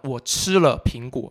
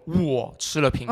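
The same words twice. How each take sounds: First: The stress falls on the word 吃. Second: The stress falls on the word 我. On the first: It tells what was done to the apple. "你对苹果干嘛了" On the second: It tells who ate the apple. "谁吃了苹果"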